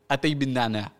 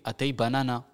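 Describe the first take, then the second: First: The middle is said as two words, bin nana. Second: The middle is said as one word, banana. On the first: It asks for mint tea. The speaker calls it right. "qui veut dire thé à la menthe" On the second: It sounds like asking for banana. The speaker calls it wrong. "Elle a demandé Atay banana"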